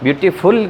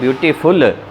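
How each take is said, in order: First: The stress is on the last syllable. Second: The stress is on the last syllable.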